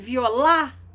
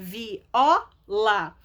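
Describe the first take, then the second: First: The stress is on the last syllable. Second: The stress is on the second-to-last syllable. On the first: The speaker calls it wrong. "seria a última sílaba tônica mais forte" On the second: The speaker calls it right. "a sílaba tônica mais forte é o O, que é a penúltima"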